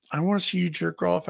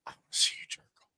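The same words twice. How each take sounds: First: Said in the usual way. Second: Retold whisper. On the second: Retold request, whispered, then asked to repeat.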